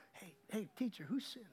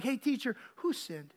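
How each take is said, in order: First: Low-volume, behind-his-back murmur; hushed aside. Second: Said in the usual way. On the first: Retold or imitated. Church person asking behind the blind man's back, hushed. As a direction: ask it under your breath, not to him. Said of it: "not to him". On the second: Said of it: "having some church person say".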